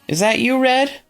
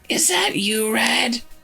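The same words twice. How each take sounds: First: It is said in a fairly smooth voice. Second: It is said in a raspy, creaky voice.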